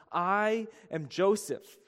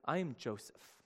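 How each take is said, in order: First: Slow, weighty I am Joseph; slow reveal. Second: Much softer I am Joseph; quiet reveal. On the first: Acted. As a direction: lean on I and draw I am Joseph out slowly. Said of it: "And Joseph said to his brothers". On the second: Retold or imitated. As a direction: say I am Joseph softly, like a confession. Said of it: "he says".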